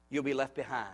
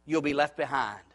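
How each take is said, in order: First: Softer, weighty echo; solemn quiet repeat. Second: Said in the usual way. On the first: Shown as a demonstration. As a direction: let the warning sink in softly.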